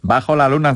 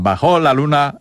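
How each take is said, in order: First: The stress in bajo is on the first syllable. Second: The stress in bajo is on the last syllable. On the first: It means under the moon. "znaczy, że pod księżycem" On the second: It means the moon went down. "znaczy, że zaszedł"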